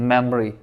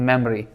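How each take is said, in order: Both takes have the same delivery.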